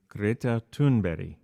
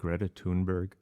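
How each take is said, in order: First: The name is said with a Swedish pronunciation. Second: The name is said with an English pronunciation. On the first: The speaker calls it right. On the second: The speaker calls it wrong.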